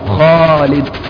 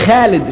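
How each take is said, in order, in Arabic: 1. الحرف الأول يُنطق مفخم وثقيل. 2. الحرف الأول يُنطق مرقق وخفيف.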